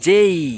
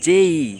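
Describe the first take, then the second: No difference in how they are said.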